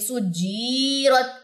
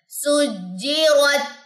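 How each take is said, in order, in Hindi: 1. j के बाद वाला स्वर लंबा खींचा गया है। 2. j के बाद वाला स्वर छोटा रखा गया है।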